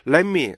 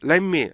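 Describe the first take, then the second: The two takes are said the same way.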